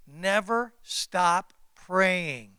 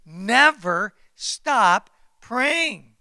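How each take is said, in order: First: Slow, drawn-out never stop praying; unhurried, weighty plea; slow emphasis. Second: Slow, louder never stop praying; louder repeat. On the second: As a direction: drive praying home louder. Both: Shown as a demonstration.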